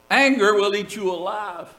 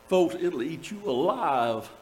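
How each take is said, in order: First: "Anger" hit first and hard, then falling; stress on anger. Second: Softer warning. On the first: Pastor drives the warning home to his congregation, stressing "Anger". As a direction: punch the word "Anger" as the warning. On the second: Pastor quietly warns his congregation, softly falling. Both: Shown as a demonstration.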